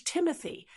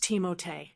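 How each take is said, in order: First: "Timothy" said as "TIM-uh-thee"; English "Timothy", soft th and "ee" ending; English pronunciation. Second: "Timothée" said as "tee-mo-tay"; French-style "Timothée", tee-mo-tay; French pronunciation. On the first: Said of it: "using the more English". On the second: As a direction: say "Timothée" with a t sound and an "ay" ending. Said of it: "it's pronounced". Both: Shown as a demonstration.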